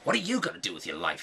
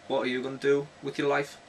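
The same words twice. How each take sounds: First: It is asked in a scornful, mocking tone. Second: It is asked in a sincere, curious tone. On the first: The listener is being put down as a failure. The speaker calls it wrong. "No, not like that" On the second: The speaker genuinely wants to know the listener's plans. The speaker calls it right. "Not like in a derogatory sense"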